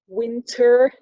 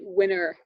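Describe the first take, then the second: First: The t sound is clearly pronounced. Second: The t sound is dropped entirely.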